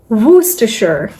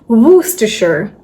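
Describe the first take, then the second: No difference in how they are said.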